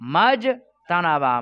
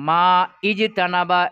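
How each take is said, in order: First: The two words are joined without the initial vowel. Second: The initial vowel of the second word is pronounced. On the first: The speaker calls it right. "কি বলতে হবে? মাজ তানাবা।" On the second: The speaker calls it wrong. "এরকম বলতে হবে কি না?"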